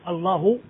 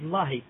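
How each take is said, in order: First: The word ends with an u vowel. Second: The word ends with an i vowel. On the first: The speaker calls it right. "au lieu de dire Allahu" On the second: The speaker calls it wrong. "je dis Lahi"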